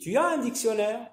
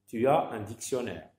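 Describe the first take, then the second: First: The voice rises at the end. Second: The voice falls at the end. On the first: It is a yes-no question. "il y a la voix qui monte" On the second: It is a statement. "dans une phrase déclarative, la voix descend"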